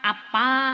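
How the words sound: The word ends with an open 'a' vowel. This is the Ngapak dialect form. "Nek ngapak kan biasane diakhiri a ngoten"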